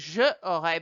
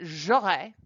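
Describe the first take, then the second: First: The vowel of je is kept before aurais. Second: The vowel of je is dropped before aurais. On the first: The speaker calls it wrong. "I wouldn't say je aurais" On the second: The speaker calls it right. "but j'aurais"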